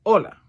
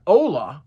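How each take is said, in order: First: "hola" with a short, pure Spanish o; natural Spanish "hola". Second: "hola" with a drawn-out American "oh"; over-anglicized "hola". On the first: Teacher modelling for the class, natural Spanish "hola". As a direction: say "hola" crisply, without English gliding vowels. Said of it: "the word is hola". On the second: Teacher showing what to avoid, anglicized "hola". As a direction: stretch "hola" as an English speaker would. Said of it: "exaggerate the hola". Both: Shown as a demonstration.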